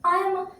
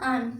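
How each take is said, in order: First: Two separate words are said in full. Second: The words are merged into one short syllable. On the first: The speaker calls it wrong. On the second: The speaker calls it right.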